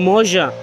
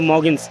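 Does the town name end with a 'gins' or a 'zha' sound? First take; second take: zha; gins. First: The name ends with a soft 'zha' sound. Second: The name ends with a hard 'gins' sound. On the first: This is how local people say it. The speaker calls it right. "they were like, oh, Moja" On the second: This is how the speaker read it from the spelling. The speaker calls it wrong. "I was saying I need to go to Mogins"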